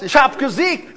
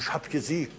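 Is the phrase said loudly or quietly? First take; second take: loudly; quietly. First: It is said loudly, as if proclaiming. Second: It is said quietly, as if confiding. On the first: It is announced to everyone everywhere. "Nein, wo immer du hinkommst" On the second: It is shared as a private secret. "ich musste ganz was im Vertrauen sagen"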